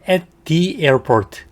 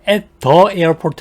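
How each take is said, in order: First: The word 'the' is said with a long 'thee' vowel. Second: The word 'the' is said with a short 'thuh' vowel. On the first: The speaker calls it right. "더라는 단어 다음에 모음 발음이 오면은 D라고 읽죠" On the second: The speaker calls it wrong. "아니고"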